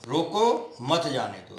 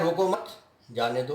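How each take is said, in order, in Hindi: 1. रोको के ठीक बाद विराम है। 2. मत के ठीक बाद विराम है। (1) "रोको के बाद लगा दिया अर्धविराम" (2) "रोको मत के बाद में अर्धविराम लगा दिया हमने"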